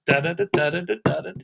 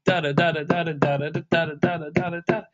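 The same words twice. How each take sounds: First: Da syllables with every third da punched; accent every third note. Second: Da syllables with every second da punched; accent every other note. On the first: Teacher shows the accent on every third eighth note. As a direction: scat it hitting every third da. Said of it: "every third eighth note". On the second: Teacher shows the accent on every other eighth note. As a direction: scat it hitting every other da. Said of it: "accent would be every other eighth note". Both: Shown as a demonstration.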